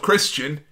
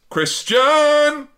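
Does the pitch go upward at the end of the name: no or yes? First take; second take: no; yes. First: The name is said plainly, without an upward pitch. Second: The name ends with an upward pitch. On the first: This is the ordinary way to say the name. The speaker calls it wrong. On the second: This is the way the wrestler insists on being called. The speaker calls it right.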